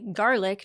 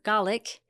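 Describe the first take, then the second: First: It is said with an American pronunciation. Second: It is said with a British pronunciation. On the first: "in the United States we say garlic" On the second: "not garlic"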